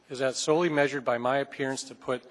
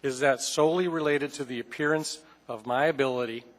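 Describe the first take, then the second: First: A touch slower, each word spelled out; slow down so the chair catches every word; said slowly. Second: Said in the usual way. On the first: Shown as a demonstration. Council member to the legal counsel, saying it slowly. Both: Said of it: "and I'll say it slowly".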